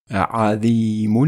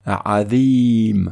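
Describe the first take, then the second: No difference in how they are said.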